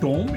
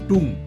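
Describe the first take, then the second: First: The vowel sounds like 'oh', rhyming with home. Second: The vowel sounds like 'oo', rhyming with room. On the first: The speaker calls it wrong. "Not pronounce as" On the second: The speaker calls it right. "It's pronounce as"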